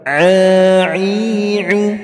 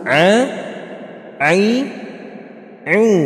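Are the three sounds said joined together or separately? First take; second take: joined; separately. First: The sounds are joined together without pauses. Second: Each sound is said separately with pauses. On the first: "kita gabungkan" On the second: "tadi kan dieja satu-satu"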